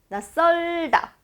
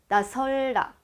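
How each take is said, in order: First: The second syllable starts with a tensed ss. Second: The second syllable starts with a plain s. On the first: The speaker calls it right. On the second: The speaker calls it wrong.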